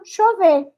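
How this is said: The ll sounds like ch or sh. "E o argentino"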